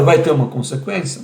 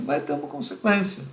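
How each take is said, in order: First: "vai ter uma consequência?" asked with a rising tune; doubtful question, voice lifting on "consequência". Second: "Vai ter uma consequência." stated flat and falling, softer; quiet certain statement with a falling close. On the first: Asks then answers himself. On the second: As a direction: settle "Vai ter uma consequência." as a firm answer, dropping at the end. Answers own question. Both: Shown as a demonstration.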